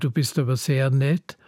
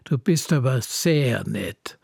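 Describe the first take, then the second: First: It sounds sincere and friendly. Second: It sounds sarcastic, meaning the opposite.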